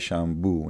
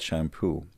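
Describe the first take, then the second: First: It is said with an Arabic accent. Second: It is said with plain English pronunciation. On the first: "And we buy shampoo" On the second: "not shampoo"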